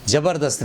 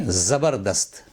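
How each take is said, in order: First: 'ज़बरदस्त' with an initial j; wrong pronunciation. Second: 'ज़बरदस्त' slowly with a buzzing initial z; correct pronunciation. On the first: Teacher rejects the common error, mispronounced. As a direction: begin 'ज़बरदस्त' on j, not z. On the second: Teacher corrects the word, properly pronounced. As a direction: draw out the z opening 'ज़बरदस्त'. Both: Shown as a demonstration. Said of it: "ज़बरदस्त नहीं".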